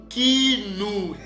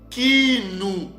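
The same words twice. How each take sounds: The two takes are said the same way.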